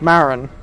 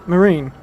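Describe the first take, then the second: First: The name ends with a short 'in' sound. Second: The name ends with a long 'een' sound. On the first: "I always thought it was pronounced like Marin" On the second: "So like Marine, like U S Marine"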